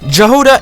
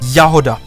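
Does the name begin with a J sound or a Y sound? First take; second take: J sound; Y sound. First: The name begins with a J sound. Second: The name begins with a Y sound. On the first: The speaker calls it wrong. "the incorrect pronunciation that I kept hearing" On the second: The speaker calls it right. "the correct pronunciation would be Yahoda"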